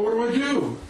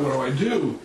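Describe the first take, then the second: First: High-pitched, frantic plea; mock panic. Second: Said in the usual way. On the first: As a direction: pitch it up as if desperate for help. Repeats question as attacker runs up.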